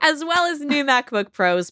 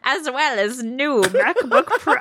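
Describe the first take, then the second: First: It is said in his normal speaking voice. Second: It is said in a spooky Crypt Keeper voice.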